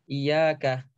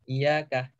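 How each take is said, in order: No difference in how they are said.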